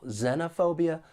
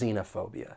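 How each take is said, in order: First: The first vowel is short, as in 'ten'. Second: The first vowel is long, as in 'see'. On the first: "short E" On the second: "long E"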